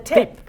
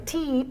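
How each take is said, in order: First: The vowel is short, as in 'it'. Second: The vowel is long, like 'ee'. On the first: The speaker calls it right. "It's it" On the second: The speaker calls it wrong. "It's not from the teep"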